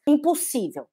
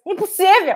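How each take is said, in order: First: Said in the usual way. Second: Impossível! jumped much higher with a falling finish; emphatic exclamation. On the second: Shown as a demonstration. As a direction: hammer home impossível! high and firm. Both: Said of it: "Já põe isso na cabeça".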